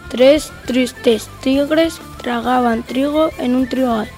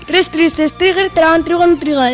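First: It is said at a slow speed. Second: It is said at a fast speed. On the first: "Vamos con la velocidad lenta" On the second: "Y vamos con la velocidad rápida"

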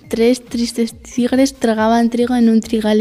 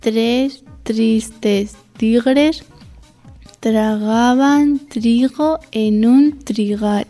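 First: The sentence is spoken at a normal pace. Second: The sentence is spoken at a slow pace. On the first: "A velocidad normal"

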